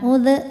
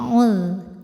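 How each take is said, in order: First: The final consonant stops with a bouncing release. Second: The final consonant flows smoothly without stopping. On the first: The speaker calls it wrong. "jangan dipantulin. Bukan ud" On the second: The speaker calls it right. "ini zal suaranya rakhawah, mengalir ya"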